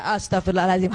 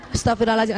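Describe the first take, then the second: First: Lower, deeper husband's prayer for forgiveness; husband finally repents. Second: Husband joins in. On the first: The preacher voices the husband finally saying his prayer for forgiveness, low and deep. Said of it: "yang kelima dia". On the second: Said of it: "suami ngikut". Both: Retold or imitated.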